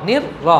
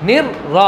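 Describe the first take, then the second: The two takes are said the same way.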